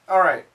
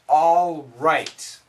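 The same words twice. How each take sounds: First: The L sound is dropped into the R. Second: The L sound is clearly pronounced.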